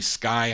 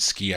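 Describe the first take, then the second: First: The vowel is an 'eye' sound. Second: The vowel is a long 'ee' sound. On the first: The speaker calls it right. "I think it's really Sky High" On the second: The speaker calls it wrong. "I don't think you pronounce it ski"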